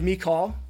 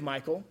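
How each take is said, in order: First: The name is said in a softer, feminine form. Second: The name is said like the male name Michael. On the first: "pronounce it in maybe a slightly more feminine way" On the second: "I refer to a girl as Michael"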